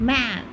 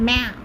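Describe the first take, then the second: No difference in how they are said.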